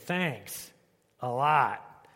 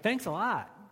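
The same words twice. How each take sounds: First: It is said sarcastically and dismissively. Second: It is said sincerely and warmly.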